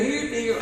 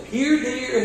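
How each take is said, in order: First: Trailing high mock call; mock deer call again. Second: High, sing-song call to a deer, louder; mock calling here deer in a high voice. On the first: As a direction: repeat the silly call to the deer. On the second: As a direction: coax the deer back in a silly high voice. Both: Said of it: "calling the deer mockingly".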